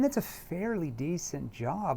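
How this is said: The tone is skeptical and doubting. The speaker calls it right. "I'm seeding doubt by my tone. It's kind of a kind of a skeptical"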